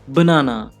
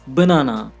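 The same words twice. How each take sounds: First: The stress is on the second syllable. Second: The stress is on the second syllable.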